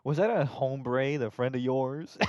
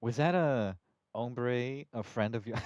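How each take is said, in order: First: Slow, louder drawl on hombre; slow hombre take. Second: Cowboy voice. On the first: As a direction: stretch hombre out slowly. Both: Acted. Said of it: "saying hombre is so funny".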